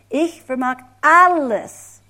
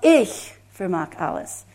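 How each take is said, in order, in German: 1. Die Betonung liegt auf dem Wort alles. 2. Die Betonung liegt auf dem Wort ich. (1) "das nächste Wort. Ich vermag alles. Oh, wow" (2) "erstmal, ich vermag alles. Ich, [name]"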